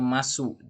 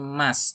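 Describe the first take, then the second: First: The word ends with a clear final u vowel. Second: The word ends without a final u vowel. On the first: The speaker calls it wrong. "tidak masu" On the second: The speaker calls it right. "Di akhirnya mas, tidak masu"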